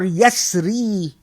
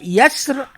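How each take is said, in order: First: The word ends with a final ee vowel sound. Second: The word ends on the r, with no final vowel. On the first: "with iya" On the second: "without iya"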